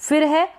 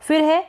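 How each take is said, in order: No difference in how they are said.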